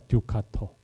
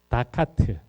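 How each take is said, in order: First: It is said Italian-style, beginning with 'du'. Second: It is said English-style, beginning with 'da'. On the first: The speaker calls it right. "두카토입니다" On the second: The speaker calls it wrong. "그게 약간 어, 영어식 좀 이상한 발음인데"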